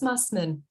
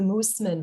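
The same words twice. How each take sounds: First: The name is pronounced in a plain English style. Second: The name is pronounced in a German style. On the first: The speaker calls it right. "but it's just Mussman" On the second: The speaker calls it wrong. "make it fancy and go old German with the Mussman"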